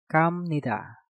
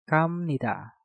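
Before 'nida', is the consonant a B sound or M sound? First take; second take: M sound; M sound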